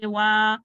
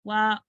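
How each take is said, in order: First: वा held out long and loud; wrongly long vowel. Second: वा cut to a short wa; short vowel. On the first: Teacher shows the mistake, over-long वा. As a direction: stretch the aa of वा too far. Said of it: "इसको ऐसे नहीं पढ़ेंगे". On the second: Teacher corrects the mistake, short वा. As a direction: keep the a of वा brief. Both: Shown as a demonstration.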